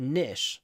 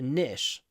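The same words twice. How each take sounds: First: It is said with an American pronunciation. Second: It is said with an American pronunciation.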